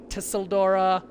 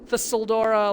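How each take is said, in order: First: The name begins with a T sound. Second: The name begins with a TH sound.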